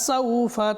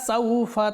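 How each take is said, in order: The two takes are said the same way.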